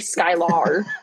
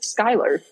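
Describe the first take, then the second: First: The name ends in a hard 'ar' sound. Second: The name ends in a soft 'er' sound. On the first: The speaker calls it wrong. "Like the hard, like the A-R" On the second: The speaker calls it right. "it's just Skylar"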